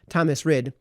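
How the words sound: The name is pronounced with English sounds. "the Anglicization"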